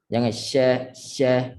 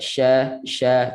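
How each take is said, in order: First: "sya" with too little hiss; weak wrong "sya". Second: Strong hissed "sya". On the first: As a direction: show "sya" thin and weak. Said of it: "itu sikit sangat". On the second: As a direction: hiss the "sya" firmly. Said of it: "Biar kuat". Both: Shown as a demonstration.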